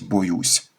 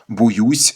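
First: The first vowel sounds like 'o'. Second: The first vowel sounds like 'u'. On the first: "замість" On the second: "укання на місці етимологічного «о»"

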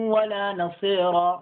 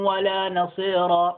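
No difference in how they are said.

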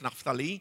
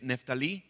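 First: The name is pronounced the Hebrew way. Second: The name is pronounced the Spanish way. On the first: "como lo pronuncian así ellos" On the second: "que es"

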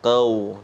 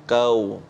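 The two takes are said the same way.

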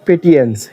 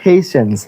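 First: The middle consonant is a 't' sound. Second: The middle consonant is a 'sh' sound. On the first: The speaker calls it wrong. "Not পেটিয়েন্স" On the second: The speaker calls it right. "উচ্চারণ ফেশনস"

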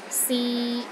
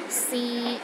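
First: The pitch is mid and steady. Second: The same.

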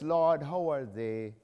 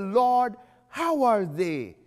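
First: It is read quickly and carelessly. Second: It is read slowly and earnestly. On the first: The reader does not mean or understand the words. The speaker calls it wrong. "if you are just" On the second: The reader means the prayer sincerely. The speaker calls it right. "When you read it like you meant it"

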